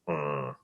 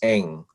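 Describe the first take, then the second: First: It is said on a very low, throaty tone. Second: It is said as a plain English syllable. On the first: "more accurately pronounced as Ng ... the lowest of nine tones" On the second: "the typical Americanized way"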